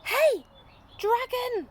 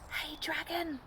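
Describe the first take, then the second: First: It is shouted very loudly. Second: It is whispered very softly.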